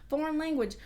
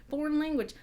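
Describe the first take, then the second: The two takes are said the same way.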